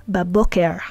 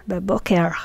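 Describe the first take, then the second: Both takes have the same delivery.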